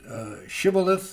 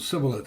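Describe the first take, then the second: First: The word begins with an sh sound. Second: The word begins with a plain s sound. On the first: The speaker calls it right. "one was a" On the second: The speaker calls it wrong. "the other was a"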